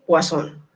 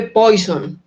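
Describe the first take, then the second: First: "Poisson" said the French way, pwah-SON; French pronunciation. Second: "Poisson" said slowly as written, like POY-son; read as spelt. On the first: Teacher showing students how it is said, "Poisson" as French pwah-SON. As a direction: say "Poisson" slowly as pwah-SON, stressed at the end. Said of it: "Y se dice Poisson". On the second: Teacher showing students the spelling, "Poisson" sounded out as POY-son. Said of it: "Se escribe Poisson". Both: Shown as a demonstration.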